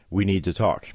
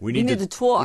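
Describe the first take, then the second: First: It is said in the speaker's ordinary accent. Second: It is said in a New York accent.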